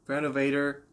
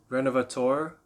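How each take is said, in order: First: It is pronounced with English sounds. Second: It is pronounced with French sounds.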